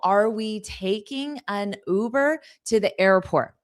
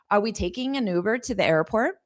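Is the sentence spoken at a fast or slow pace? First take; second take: slow; fast. First: It is spoken slowly and carefully. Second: It is spoken at a natural pace.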